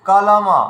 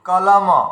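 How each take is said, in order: Both takes have the same delivery.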